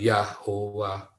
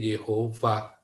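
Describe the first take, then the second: First: The first vowel is 'a', ending in 'wa'. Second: The first vowel is 'e', ending in 'ova'. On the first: The speaker calls it wrong. "bukan Yahwa" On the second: The speaker calls it right. "maka ini menjadi Yehova"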